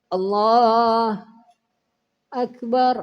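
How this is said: A short pause separates the two words. The speaker calls it wrong. "kayak ada tadiam satu mat, walaupun sedikit"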